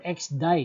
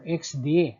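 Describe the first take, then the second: First: The last word ends with an 'eye' sound. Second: The last word ends with an 'ay' sound. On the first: The speaker calls it wrong. "some will pronounce this as X D I" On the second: The speaker calls it right. "the proper uh, is X D A"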